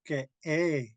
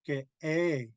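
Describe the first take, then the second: No difference in how they are said.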